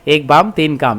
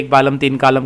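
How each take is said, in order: First: No L sound is pronounced in either word. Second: An L sound is pronounced in both words. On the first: The speaker calls it right. "तो यहाँ पे एल silent है" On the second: The speaker calls it wrong. "कोई पढ़ ना जाए इसको"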